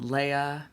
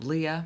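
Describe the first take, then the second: First: The name is two syllables, ay then uh. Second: The name is two syllables, ee then uh. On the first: "thank you, Star Wars" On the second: "I don't know where that one comes from"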